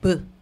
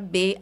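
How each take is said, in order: First: The letter is said as a bare consonant sound. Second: The letter is said as its full name. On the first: "O som do B é B" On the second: "Isso é nome de letra, não é som"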